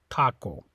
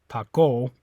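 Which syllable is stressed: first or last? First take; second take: first; last. First: The stress is on the first syllable. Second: The stress is on the last syllable. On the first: The speaker calls it right. "you say taco" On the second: The speaker calls it wrong. "it's not on the O. You don't say taco"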